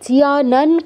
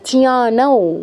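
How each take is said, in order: First: The word ends with a plain n sound. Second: The word ends with a nasalized vowel. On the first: The speaker calls it wrong. "জিয়ানন কেন?" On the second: The speaker calls it right. "ও হসন্ত চন্দ্রবিন্দু"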